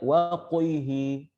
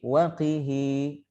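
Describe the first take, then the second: First: The q sound is heavy, with the tongue raised. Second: The q sound is light, with the tongue lowered. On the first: The speaker calls it wrong. "Tidak waqihi, qihi, tidak dibaca seperti itu" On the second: The speaker calls it right. "Tapi waqihi, lidah bisa dirasakan turun"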